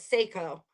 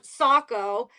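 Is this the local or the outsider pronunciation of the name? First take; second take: outsider; local. First: It is said the way outsiders pronounce it. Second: It is said the way locals pronounce it. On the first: The speaker is not from the area. The speaker calls it wrong. "anyone who's not from Maine calls it Saco" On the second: The speaker is from the area. The speaker calls it right. "in Maine, we have Saco"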